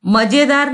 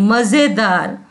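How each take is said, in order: First: "मजेदार" said as ma-je-daar, with a hard j; wrong j sound. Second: "मजेदार" said as ma-ze-daar, with a buzzing z; correct z sound. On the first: Teacher shows the mistake, j in "मजेदार". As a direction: use j, no buzz, in "मजेदार". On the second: Teacher corrects the mistake, z in "मजेदार". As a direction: turn the j of "मजेदार" into z. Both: Shown as a demonstration. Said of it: "मजेदार नहीं".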